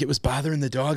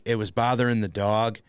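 First: "It was bothering the dog" higher, rising into a question; questioning echo. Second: Said in the usual way. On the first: Retold or imitated. Wife doubting his excuse on the phone, rising question on "bothering the dog". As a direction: query "bothering the dog" with a lifted, rising end. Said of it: "she's like". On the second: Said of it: "I'm like".

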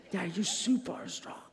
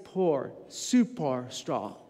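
First: Said in the usual way. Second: "Poor" said slow and low, with no R in "Daddy"; child's mispronunciation. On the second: Shown as a demonstration. Son mispronouncing "Daddy" as "Poor", said slow and low. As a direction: mimic a small boy saying "Poor" for "Daddy", slowly. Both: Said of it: "He doesn't say E R".

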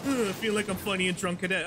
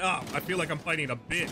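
First: Whiny mocking echo of the voice; mocking imitation. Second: Said in the usual way. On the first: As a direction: parrot the taunt in a sneering voice. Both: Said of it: "that lame-ass tone that said that shit".

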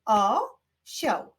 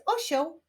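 First: "Osioł" broken into O, sioł; syllable by syllable. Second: Said in the usual way. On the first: Shown as a demonstration. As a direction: pause between the two beats of "Osioł". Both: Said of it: "wyklaszczmy sylaby".

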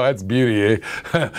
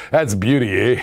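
First: Lower, hammed-up Canadian "beauty, eh"; Canadian slang. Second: Lower, hammed-up Canadian "beauty, eh" again; Canadian slang. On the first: Seller showing viewers the most Canadian phrase, mock Canadian accent. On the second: Seller repeating the most Canadian phrase, mock Canadian accent. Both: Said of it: "most Canadian thing you can say".

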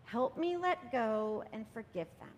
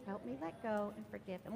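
First: Slow, gentle letting-go prayer; calm plea to let go; gentle release prayer. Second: Softer, gentle repeat of the plea; hushed second take of the plea; softer prayer echo. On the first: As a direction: ease into it slowly, hands opening. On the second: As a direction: let it fall away quietly. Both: Shown as a demonstration. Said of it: "and say".

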